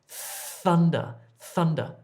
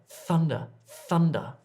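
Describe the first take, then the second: The two takes are said the same way.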